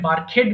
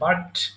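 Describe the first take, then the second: First: The ending is said as an extra syllable. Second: The ending is a plain t sound, one syllable. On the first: The speaker calls it wrong. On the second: The speaker calls it right.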